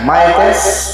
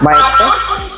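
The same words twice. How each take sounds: First: The voice is plain, with no effect applied. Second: The voice is changed by a voice effect. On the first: "Ito yung original" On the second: "Pag babaguhin yung boses, pipindutin lang po ito"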